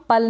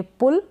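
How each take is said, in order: First: पल with unrounded 'uh' instead of 'oo'; wrong vowel demo. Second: पुल with short u, not 'uh'; short-u pronunciation. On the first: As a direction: say पल with an 'uh' vowel, rhyming with 'dull'. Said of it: "हम पल नहीं पढ़ेंगे". (पल में उ की जगह अ का उच्चारण) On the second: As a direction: say पुल with a short rounded 'oo', as in 'book'. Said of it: "इसको भी हम पल नहीं पढ़ेंगे". (पुल में छोटे उ का उच्चारण) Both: Shown as a demonstration.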